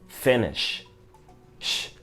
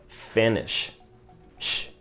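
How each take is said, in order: No difference in how they are said.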